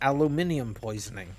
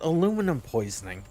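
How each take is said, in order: First: The word aluminium has five syllables. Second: The word aluminum has four syllables.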